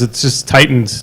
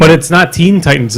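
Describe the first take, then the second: First: "Titans" stressed with a falling tune, said quieter. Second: Put-on "Teen" stressed and falling, correcting the title. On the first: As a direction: land on "Titans" as the correction. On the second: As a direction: lean on "Teen" in "Teen Titans". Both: Shown as a demonstration.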